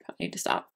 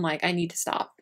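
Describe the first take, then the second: First: Whispered aside. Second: Said in the usual way. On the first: Real, not acted.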